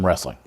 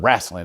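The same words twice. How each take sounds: First: The word is said in a neutral accent. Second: The word is said in a Charlotte local accent.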